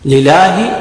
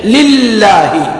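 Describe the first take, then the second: First: Single short L in لله; missing shadda. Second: Doubled, held L in لله; shadda on the lam. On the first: Teacher shows worshippers the mistake, لله without shadda. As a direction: say لله with one undoubled L. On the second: Teacher corrects the mistake, لله with full shadda. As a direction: lean long on the double L of لله. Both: Shown as a demonstration. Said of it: "اللام عليها شدة".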